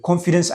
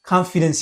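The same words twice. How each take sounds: First: "ኮንፊደንስ" with a rounded "kon" first syllable; wrong pronunciation. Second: "ኮንፊደንስ" with an open "kahn" first syllable; correct pronunciation. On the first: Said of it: "ኣይትበሃልን እያ". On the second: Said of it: "እያ ትንበብ". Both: Shown as a demonstration.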